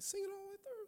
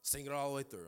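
First: It sounds incredulous, like a doubting question. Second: It sounds resigned, with a sigh of acceptance.

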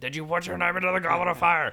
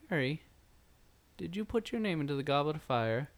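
First: It is yelled in an accusing tone. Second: It is said in a calm tone.

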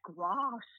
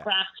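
First: It is said in a southern English accent. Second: It is said in a northern English accent.

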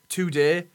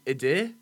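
First: The T sound at the start is pronounced. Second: The T sound at the start is dropped.

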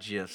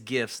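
First: The word begins with a soft G sound. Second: The word begins with a hard G sound. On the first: The speaker calls it wrong. "It's not a soft G" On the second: The speaker calls it right. "it's a hard G"

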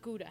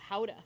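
First: The word has an English-style pronunciation. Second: The word has a Dutch-style pronunciation. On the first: The speaker calls it wrong. "Not Gouda" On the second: The speaker calls it right.

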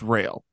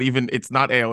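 First: The word starts with an r sound. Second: The word starts with a vowel sound. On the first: "it's rail" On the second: "it's not ale"

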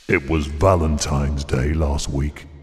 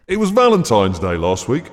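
First: It is said in a seductive, sexy voice. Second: It is said in a normal speaking voice.

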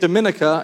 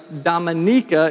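First: The stress falls on the second syllable. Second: The stress falls on the third syllable. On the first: The speaker calls it wrong. "Don't say Dominica" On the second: The speaker calls it right. "it's Dominica"

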